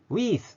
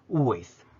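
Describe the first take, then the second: First: The vowel is drawn out long. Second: The vowel is short after a strong, rounded w. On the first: The speaker calls it wrong. "ウィースっていう方がいるので" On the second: The speaker calls it right. "ダブリューの方が強く発音して、はっきりと唇をすぼめる"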